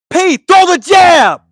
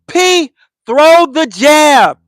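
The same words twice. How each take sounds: First: It is shouted loudly and bluntly. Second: It is said with a controlled tone. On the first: "the first time it was loud and blatant" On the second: "The second time it was a tone to it"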